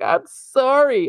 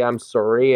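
First: Apologetic. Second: Said in the usual way. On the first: Retold or imitated. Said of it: "I was like". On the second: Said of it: "to say".

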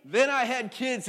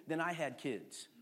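First: Loud, knowing punchline; loud reveal to the congregation; louder punchline. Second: Laughing. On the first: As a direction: hit it hard for the laugh. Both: Shown as a demonstration.

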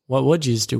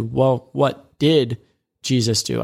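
First: Said in the usual way. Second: "did" stretched out slowly and weighted; slow, deliberate "Well, what did" with the weight on "did"; stress on did. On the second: Shown as a demonstration. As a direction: lean hard on "did" as the better question. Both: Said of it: "that's an even better question".

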